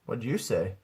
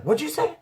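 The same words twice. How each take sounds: First: Said in the usual way. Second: High-pitched grandma demanding an answer; questioning grandma. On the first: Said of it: "I was like". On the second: Retold or imitated. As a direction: imitate her with a sharp rise. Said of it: "She's like".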